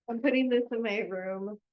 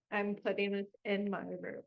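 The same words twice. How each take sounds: First: Said in the usual way. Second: "I'm putting this in my room" said again, softer, to herself; softer repeat. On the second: Shown as a demonstration. Repeating to herself where the gift goes, softly. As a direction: murmur it a second time to herself.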